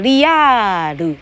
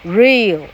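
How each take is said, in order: First: It is said as three separate syllables. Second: It is said as a single syllable.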